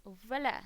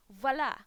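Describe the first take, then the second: First: Said in the usual way. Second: Flourishing reveal, a touch louder; showy voila. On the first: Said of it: "repeats the reveal plainly". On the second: Shown as a demonstration. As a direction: present it like a magician's reveal. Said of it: "showing off outfit, announcing".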